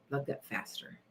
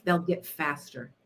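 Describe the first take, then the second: First: A secret whispered mantra. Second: Said in the usual way. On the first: Shown as a demonstration. Whispering the mantra to her viewers, hushed. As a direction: breathe the words out with no voice, very soft.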